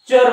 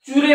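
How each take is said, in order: First: The syllable is said as char. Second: The syllable is said as chure. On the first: The speaker calls it right. "चर म्हणा" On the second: The speaker calls it wrong. "चुरे म्हणू नका"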